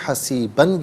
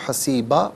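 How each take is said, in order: First: The word ends with a final n sound. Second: The word ends on a long a vowel. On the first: The reading continues without a stop. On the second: The reader stops at this word.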